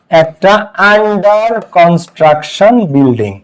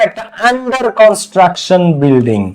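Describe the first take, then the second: First: Under construction building said word by word, very slowly; very slow model phrase. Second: Slow model phrase. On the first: Bangla ক্লাসে ছাত্রদের জন্য under construction building খুব ধীরে, ভেঙে ভেঙে বলা. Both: Shown as a demonstration. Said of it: "এখানে আ হইছে".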